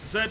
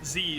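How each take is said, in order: First: The letter is said as zed. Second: The letter is said as zee. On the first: "Z is British English" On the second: "Z is American English"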